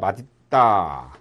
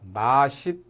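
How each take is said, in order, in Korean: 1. 중간 자음은 d 소리예요. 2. 중간 자음은 s 소리예요. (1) "디귿을 그대로 인정을 해서 대표음으로 발음하는 맛있다" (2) "시옷을 대표음으로 안고 연음시키는 발음"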